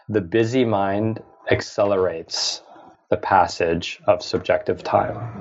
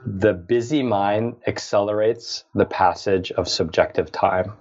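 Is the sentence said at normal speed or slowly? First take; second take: slowly; normal speed. First: It is said slowly and deliberately. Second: It is said at a normal pace.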